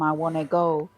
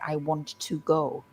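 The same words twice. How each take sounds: First: 'Want to' is blended into 'wanna'. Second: 'Want to' is said as two full words. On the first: "those words like want to become" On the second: "We don't always say I want to go"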